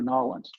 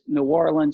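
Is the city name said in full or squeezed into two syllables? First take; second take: squeezed; full. First: The name is squeezed into two syllables. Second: The name is said in full, three syllables. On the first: "It's New Orleans or Nolans" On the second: "It's New Orleans or Nolans"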